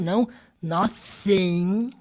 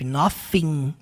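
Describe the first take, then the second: First: The first sound is a heavy, exaggerated TH. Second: The first sound is an F sound. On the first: "assim desse jeito, não, é mais sutil" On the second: "para quem acha que é som de F"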